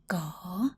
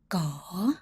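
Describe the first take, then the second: First: The pitch dips down then rises. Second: The pitch dips down then rises.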